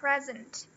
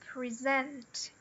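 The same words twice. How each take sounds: First: The stress is on the first syllable. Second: The stress is on the second syllable. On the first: It is the noun. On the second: It is the verb.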